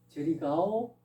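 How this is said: It is said as a question. The speaker asks if the listener is going there. "묻는 거죠. 의문문이죠"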